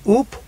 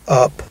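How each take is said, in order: First: The vowel is a long tense oo sound. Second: The vowel is a short relaxed u sound. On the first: The speaker calls it wrong. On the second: The speaker calls it right.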